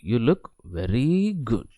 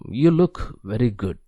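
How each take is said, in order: First: It is said with heavy extra stress. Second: It is said plainly, without extra stress. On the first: It means the opposite of the words. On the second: The compliment is meant sincerely.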